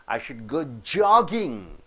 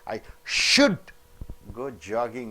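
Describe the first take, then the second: First: The main stress falls on the word jogging. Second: The main stress falls before the word jogging. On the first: It gives new information. "is a new information" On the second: It gives an opinion implying the opposite. "means opinion indicating the opposite"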